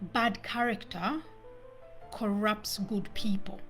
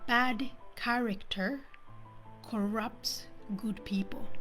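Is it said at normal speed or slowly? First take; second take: normal speed; slowly. First: It is said at normal speed. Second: It is said slowly.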